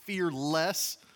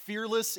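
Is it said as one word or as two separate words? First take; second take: two words; one word. First: It is said as two words, fear less. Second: It is said as one word, fearless. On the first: Having less fear than before. "another way to pronounce it" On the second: Being without fear. "the title of the series"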